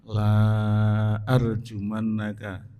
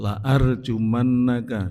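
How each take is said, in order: First: The first vowel is long. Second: The first vowel is short. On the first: I will not stone you. The speaker calls it wrong. "dibaca panjang" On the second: I will surely stone you. The speaker calls it right. "pendek saharokat"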